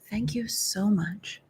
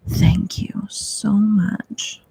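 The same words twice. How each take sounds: First: It is said in a plain, normal voice. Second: It is said in a seductive, sultry voice.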